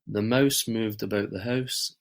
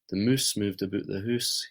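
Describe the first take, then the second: First: A mild Scottish accent, with an 'ow' vowel. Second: A strong Scottish accent, with an 'oo' vowel. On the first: "I think I pronounce the words fairly normally" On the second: "other Scottish people I know that will be a lot stronger"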